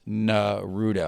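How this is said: The name is pronounced the English way. "In English it's"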